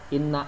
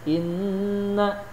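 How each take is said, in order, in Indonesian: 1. Bunyi nn dipotong pendek tanpa ditahan. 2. Bunyi nn ditahan sebentar. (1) "Gunnah itu gak boleh kita baca langsung" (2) "tapi ditahan dulu"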